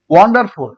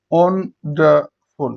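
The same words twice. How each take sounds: First: Said in the usual way. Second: wonderful slowly in three beats; syllable by syllable. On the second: Shown as a demonstration. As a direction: break wonderful into three, pausing between. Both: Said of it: "এটাকে তিনবার উচ্চারণ করা হয়".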